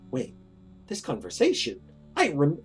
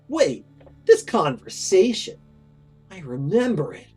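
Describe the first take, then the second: First: It is said in his normal voice. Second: It is said in an obnoxious teen voice.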